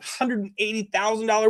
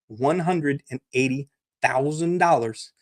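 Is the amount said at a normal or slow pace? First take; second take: normal; slow. First: The amount is said at a normal pace. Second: The amount is said slowly and deliberately.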